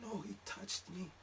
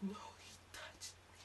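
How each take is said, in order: First: Put-on high, soft and slow girly voice; meek insistence, pitched up and quiet; timid girlfriend. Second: Put-on high girly whisper; whispered girlfriend. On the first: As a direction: girlfriend correcting him softly. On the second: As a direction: breathe it out timidly.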